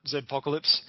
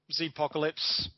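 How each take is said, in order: First: Zpocalypse with the Z said as "zed"; Zed pronunciation. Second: Zpocalypse with the Z said as "zee"; American Zee pronunciation. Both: Shown as a demonstration. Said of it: "or as we call it".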